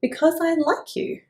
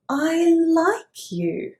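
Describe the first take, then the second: First: Said in the usual way. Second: "I like you" very slow and high, warmly insisting; slow insistent repeat. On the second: Acted. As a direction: spell it out sweetly word by word. Worm repeats slowly.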